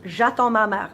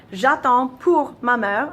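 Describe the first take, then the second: First: "J'attends ma mère" said at normal pace without pour; the correct version, spoken plainly; correct French. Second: The mistaken "J'attends pour ma mère", slowed right down; wrong French with pour. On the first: Teacher giving the correct form after the mistake, said plainly. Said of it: "but I can't". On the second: Teacher demonstrating the learner's mistake, pour stretched out. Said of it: "I wanna say pour". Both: Shown as a demonstration.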